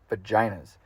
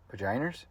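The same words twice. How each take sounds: First: Said in the usual way. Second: "Vaginas" softly as a question, ending in an R sound; questioning pronunciation. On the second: Real, not acted. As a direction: softly query "Vaginas" as "vagin-ers", pitch rising. Questions own pronunciation, then repeats it.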